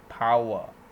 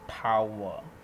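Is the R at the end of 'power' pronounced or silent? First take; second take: silent; silent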